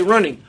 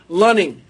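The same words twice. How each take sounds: First: Said in the usual way. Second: Lunning, with L replacing the first R. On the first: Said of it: "has an R in it". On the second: Retold or imitated. Imitating Korean colleague saying running, L in place of R. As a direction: say "Lunning" with an L at the front, louder. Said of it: "It's always an L sound".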